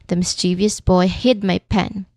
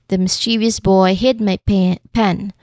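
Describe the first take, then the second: No difference in how they are said.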